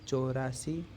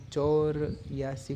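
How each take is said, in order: First: The middle is said without a 'ya' sound. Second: The middle is said with a 'ya' sound. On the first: The speaker calls it right. "यह शुद्ध उच्चारण है" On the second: The speaker calls it wrong. "चौर यासी कहेंगे तो अच्छा बोलने में अच्छा नहीं है"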